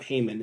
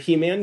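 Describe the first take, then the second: First: The name sounds like one word, Heyman. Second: The name sounds like the cartoon He-Man. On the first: This is how the person himself says his name. "Heyman is how he pronounces it" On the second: This is the speaker's own habit, from a childhood cartoon. "I call him He-Man or He-Man because I grew up with Masters in the Universe"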